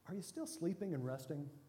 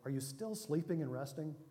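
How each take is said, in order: First: The tone is light, relieved and joyful. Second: The tone is heavy and serious.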